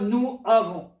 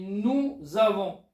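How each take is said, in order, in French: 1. Nous et avons se prononcent séparément, sans liaison. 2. Nous se lie à avons avec un son z. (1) "On ne dit pas nous avons" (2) "on dit nous avons"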